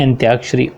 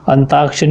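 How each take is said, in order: First: "अंत्याक्षरी" with y after t; correct pronunciation. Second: "अंताक्षरी" with no y after t; wrong pronunciation. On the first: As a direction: say "अंत्याक्षरी" as an-tyaak-shari. ("अंत्याक्षरी" में त्या, सही उच्चारण) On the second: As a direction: say "अंताक्षरी" as an-taak-shari. ("अंताक्षरी" में ता, गलत उच्चारण) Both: Shown as a demonstration. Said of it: "अंताक्षरी नहीं".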